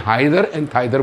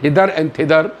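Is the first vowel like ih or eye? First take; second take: eye; ih. First: The vowels are eye sounds, American style. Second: The vowels are short ih, British style.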